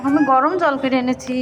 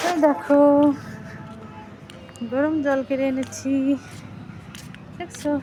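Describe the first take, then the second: First: Said in the usual way. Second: Slower, softer, soothing; soft coaxing repeat. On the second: Real, not acted. Mother shows child warm water again.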